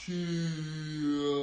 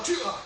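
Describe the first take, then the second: First: Long drawn-out karate cry; slow-motion kiai. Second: Sharp, high snapped kiai; short punchy karate shout; quick kiai. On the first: Coach punching in slow motion with kids, slow-motion kiai. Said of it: "I like that slow motion key out". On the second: Coach showing kids a fast punch, quick kiai. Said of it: "go as quickly as you can". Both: Shown as a demonstration.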